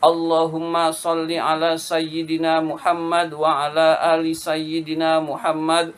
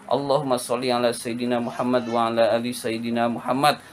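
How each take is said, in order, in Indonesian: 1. Dibaca pelan dengan huruf yang jelas. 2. Dibaca sedikit lebih cepat. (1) "bacaannya jelas huruf-hurufnya dan tidak terburu-buru" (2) "Kalau mau dicepetin dikit masih bisa"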